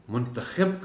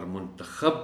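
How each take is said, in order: First: منتخب with short i, muntakhib; muntakhib, the selector. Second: منتخب with short a, muntakhab; muntakhab, the selected. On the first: Teacher defines the one choosing, منتخب said as muntakhib. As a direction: end منتخب clearly in -khib. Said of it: "کا مطلب ہوتا ہے انتخاب کرنا". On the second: Teacher defines the one chosen, منتخب said as muntakhab. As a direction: end منتخب clearly in -khab. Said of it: "جس کا انتخاب". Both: Shown as a demonstration.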